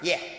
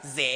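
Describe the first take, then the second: First: It is said in a Dalian accent. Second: It is said in a Sichuan accent.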